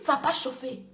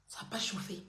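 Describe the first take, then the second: First: Quiet taunt. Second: Much lower and softer, almost breathed; whispered taunt. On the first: Telling the rival it didn't heat up, softly dismissive. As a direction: lower and softer, dismissive. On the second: Taunting the rival under her breath, nearly whispered. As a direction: drop the voice right down to a mocking hush. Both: Shown as a demonstration.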